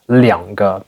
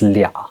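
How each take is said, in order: First: Both syllables are said in full. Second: The two syllables merge into one.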